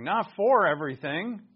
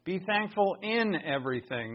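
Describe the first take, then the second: First: "for" stressed with a rise. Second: "in" stressed, the key word. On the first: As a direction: lean on "for" to reject it. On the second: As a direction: lean on "in" before "everything". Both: Shown as a demonstration. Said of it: "real clear here".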